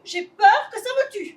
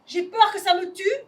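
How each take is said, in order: First: A touch louder, laughing through tears; nervous laughing repeat. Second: Said in the usual way. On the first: Acted. Lily repeats every phrase.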